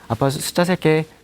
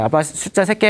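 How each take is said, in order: First: The voice is flat and low in energy. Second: The voice is loud and full of energy. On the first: The game feels boring to the child. The speaker calls it wrong. "재미가 없는 거예요" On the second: The game feels fun to the child. The speaker calls it right. "우렁찬 목소리"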